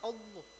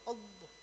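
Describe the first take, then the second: The two takes are said the same way.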